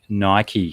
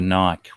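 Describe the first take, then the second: First: It has two syllables, ending in an ee sound. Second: It has one syllable, with no final vowel. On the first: "People say Nike" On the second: "for Nike"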